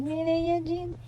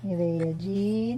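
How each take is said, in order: First: High sing-song calling the name. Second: Said in the usual way. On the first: Real, not acted.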